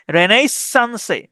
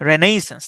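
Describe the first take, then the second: First: "রেনেসান্সে" slowly, held S and final E sounded; spelling pronunciation. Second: Said in the usual way. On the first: Shown as a demonstration. Teacher showing his own way of saying it, slow spelling pronunciation. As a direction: stretch "রেনেসান্সে" out as written, re-nais-san-se. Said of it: "আমি উচ্চারণ করি এরকম". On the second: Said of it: "এটাকে বলা হয়".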